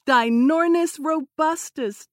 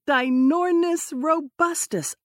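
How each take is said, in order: First: High excited squeak; squeaky. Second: High squeaky bird-call voice; bird call imitation. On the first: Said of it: "as he squeaked". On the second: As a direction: mimic a giant bird's call. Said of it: "mimicking the twelve-foot bird's calls". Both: A narrator's reading.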